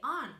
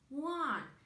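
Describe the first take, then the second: First: It begins with a plain vowel, like 'on'. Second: It begins with a 'w' sound, like 'wun'. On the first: The speaker calls it wrong. "we don't say on" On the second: The speaker calls it right. "we say one"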